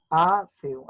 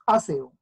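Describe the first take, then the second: First: "aseo" broken into separate beats, a-se-o; syllable by syllable. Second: Said in the usual way. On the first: Shown as a demonstration. ("aseo" separado en sílabas, a-se-o) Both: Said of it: "quedaría de esta manera".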